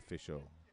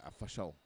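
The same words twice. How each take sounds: First: It is said in the speaker's ordinary accent. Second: It is said in a put-on Scottish accent.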